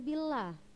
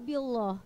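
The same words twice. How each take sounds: First: The l in Allah sounds thin and light. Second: The l in Allah sounds thick and heavy. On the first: The speaker calls it right. "lawannya dari taglis ... tarqiq" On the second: The speaker calls it wrong. "Kenapa enggak billah?"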